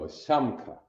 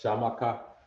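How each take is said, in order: First: The m and k are joined without a vowel. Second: An extra vowel is inserted between m and k. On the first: The speaker calls it right. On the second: The speaker calls it wrong. "Some of y'all thought that was what?"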